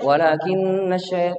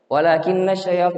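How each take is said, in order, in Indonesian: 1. Vokal panjangnya dibaca penuh. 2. Vokal panjangnya dipendekkan. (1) "panjangnya dijaga" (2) "enggak boleh"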